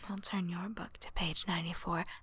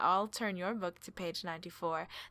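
First: It is said in a sexy, seductive way. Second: It is said in a plain, unseductive way.

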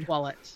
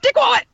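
First: It is said at a normal speaking volume. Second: It is screamed very loudly.

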